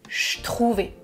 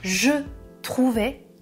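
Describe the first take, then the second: First: The vowel of 'je' is dropped and contracted. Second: The vowel of 'je' is clearly pronounced. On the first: "il dit je trouvais ... on contracte les mots" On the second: "Il ne dit pas je trouvais"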